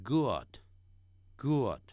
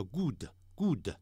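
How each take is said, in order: First: "good" with a short lax "uh" vowel, not "oo"; correct vowel. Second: "good" with a tense Chinese 乌 "oo"; mistaken "oo" vowel. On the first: Teacher models "good" for learners, short lax vowel. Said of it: "不对，不是这么发音". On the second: Teacher imitates learners' mistake, "good" with tense "oo". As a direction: mimic learners saying "good" as "goo-de". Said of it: "很多人只念成乌". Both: Shown as a demonstration.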